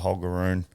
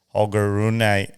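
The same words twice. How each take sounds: First: The name is said with plain English sounds. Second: The name is said with native-style sounds.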